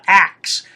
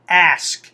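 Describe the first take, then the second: First: The word ends with a 'k' then 's'. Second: The word ends with an 's' then 'k'. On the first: The speaker calls it wrong. "not ax" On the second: The speaker calls it right. "It's A S K, ask"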